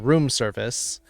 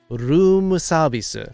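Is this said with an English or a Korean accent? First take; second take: English; Korean. First: It is said with an English accent. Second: It is said with a Korean accent. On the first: "we say room service" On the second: "and they room service"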